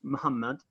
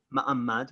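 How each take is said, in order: First: "Muhammad" with a clear h; alternative pronunciation. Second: "Ma'amad" without any h sound; "Ma'amad", slowly, h left out; spelled-form pronunciation. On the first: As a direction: sound the h in "Muhammad". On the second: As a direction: say "Ma'amad" with a-a in the middle. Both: Shown as a demonstration. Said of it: "which is also pronounced".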